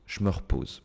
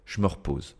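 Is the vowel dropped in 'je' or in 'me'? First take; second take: je; je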